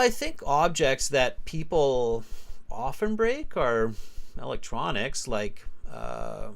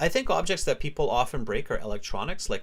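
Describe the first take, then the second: First: It is spoken slowly with spaced pauses. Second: It is spoken at a quicker, steady pace.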